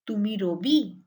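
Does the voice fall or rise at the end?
rise. The pitch rises at the end. It asks whether this is so. "is a question"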